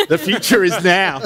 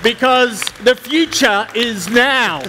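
First: Repeating the slogan through a laugh. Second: Slow, grand tech keynote declaration; mock product launch proclamation, slow and raised; grand keynote line. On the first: Pretend. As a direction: say it again, cracking up. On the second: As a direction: announce it like a visionary on stage. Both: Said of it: "I've always wanted to say that at a tech conference".

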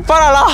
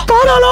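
First: Said in the usual way. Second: ¡Párala! shouted as a desperate plea. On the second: Real, not acted.

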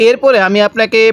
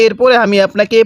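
No difference in how they are said.

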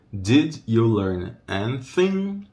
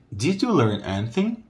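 First: Did you learn anything stretched, slowly landing on anything; slow it down and lean on anything; slow model phrase. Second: Said in the usual way. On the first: Shown as a demonstration. Teacher repeating the question slowly for learners. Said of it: "esse T H é thing". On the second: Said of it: "repeats for students".

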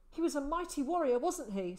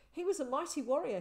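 First: Fast, higher and louder with eager hope; eager pride. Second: Fast, higher, louder with eager pride; proud boy. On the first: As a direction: press for confirmation, beaming. Boy eagerly praising father again. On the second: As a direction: boast about his hero father. Boy proudly praising his father. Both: A narrator's reading.

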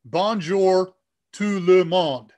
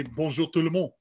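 First: French read in a heavy English accent, slow and loud. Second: French phrase in a French accent. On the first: Host mimics the speech program reading French, slow English accent. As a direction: say it word by word with English vowels, English accent. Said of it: "it'll say in English accent". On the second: Host shows what the program says, French accent. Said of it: "put French text in". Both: Shown as a demonstration.

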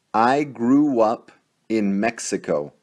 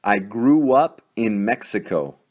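No difference in how they are said.

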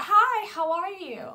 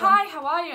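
First: High, slow, drawn-out pop-star greeting; badly faked sweet star voice. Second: Higher, louder take on a pop star's hello; second go at a star's greeting voice. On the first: Fan imitates the star greeting her, botched impression. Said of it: "That sounded more like [name]". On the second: Retold or imitated. Fan retries the star's greeting for her friend, impression.

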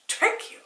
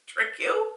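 First: Whispered Trick you? in disbelief; incredulous whisper. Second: Trick you? jumps much higher and rises at the end; incredulous high question. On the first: Reading the article, whispers in disbelief. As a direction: breathe it out, baffled. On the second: Rereading the article, squeaks in disbelief. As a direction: ask it up high, baffled. Baffled reading the article's phrase. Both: Real, not acted.

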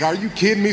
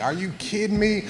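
First: High, loud exasperated cry of disbelief. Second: High, exasperated are-you-kidding-me squeak; disbelief. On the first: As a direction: shout it like a kid stuck with three more hours of work. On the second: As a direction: replay the kid's shock at having to redo it, pitched way up. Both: Retold or imitated. Told to rewax the car.

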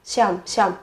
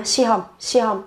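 First: "shom" clipped into one syllable, the h swallowed; fast shom. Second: "shihom" with both syllables, the h sound kept clear; slow full shihom. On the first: Teacher showing students the quick form "shom". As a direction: run "shihom" together quickly into "shom". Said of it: "đọc nhanh sẽ là shom". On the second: Teacher showing students the slow form of "shihom". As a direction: say "shihom" slowly, every syllable. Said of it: "đọc chậm sẽ là shihom". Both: Shown as a demonstration.

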